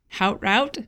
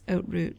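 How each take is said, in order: First: The first word begins with an H sound. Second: The first word begins with no H sound. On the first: The speaker calls it wrong. "it looks like Hout Route, if you're looking at it like an American" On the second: The speaker calls it right. "I guess you don't pronounce the H, so it's Oat Route"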